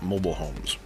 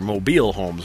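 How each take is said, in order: First: Mobile is pronounced like the adjective meaning movable. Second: Mobile is pronounced like the city name. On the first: They can be moved from place to place. The speaker calls it wrong. "not mobile homes" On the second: They are named after a city. The speaker calls it right. "named for where it came from, in this case, Mobile, Alabama"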